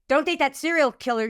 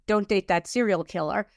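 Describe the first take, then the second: First: The tone is harsh and scolding. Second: The tone is gentle and loving. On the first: It comes from fear. "fear would say" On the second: It comes from intuition. "It will feel loving"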